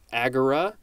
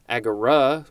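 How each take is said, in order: First: The r part gets no extra emphasis. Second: The r part gets more emphasis. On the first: "I believe it is pronounced agora" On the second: "with a little bit more emphasis on the r"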